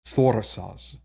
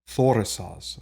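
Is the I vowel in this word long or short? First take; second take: short; short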